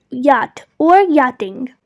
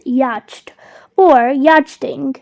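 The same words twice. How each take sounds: First: "yacht" as yot, "yachting" as yotting; silent CH. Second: "yacht" as yatcht, "yachting" as yatchting; wrong, CH sounded. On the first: Teacher models the fix, "yacht" with silent CH. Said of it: "skip the C H that is silent". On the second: Teacher imitating students' mistake, "yacht" said with audible CH. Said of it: "So that is incorrect". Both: Shown as a demonstration.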